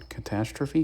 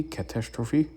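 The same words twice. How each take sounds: First: "Catastrophe" with a weak "-truh-fee", higher, as a question; questioning "Catastrophe", reduced vowel before "-phe"; trying out pronunciation. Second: "Catastrophe" with a full "-troh-fee", higher, as a question; questioning "Catastrophe", first "a" and "o" said full; alternative pronunciation. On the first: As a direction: ask "Catastrophe" as kuh-TASS-truh-fee, pitched up. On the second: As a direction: ask "Catastrophe" as cat-TASS-troh-fee, pitched up. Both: Shown as a demonstration. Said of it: "How do you pronounce that".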